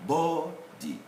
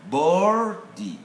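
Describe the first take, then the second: First: "boarded" as BAW-did, no R sound; R left silent. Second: "boarded" as BOR-did, with the R sounded; R pronounced. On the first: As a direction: drop the R in "boarded", syllables apart. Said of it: "here we don't have the". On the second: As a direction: sound the R in "boarded", syllables apart. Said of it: "the R pronunciation". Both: Shown as a demonstration.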